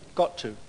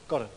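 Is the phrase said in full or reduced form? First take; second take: full; reduced. First: It is said in full as two words. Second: It is squeezed into one word, 'gotta'.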